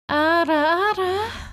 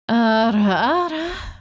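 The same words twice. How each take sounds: First: It is said in a high, soft voice. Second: It is said in a deep voice.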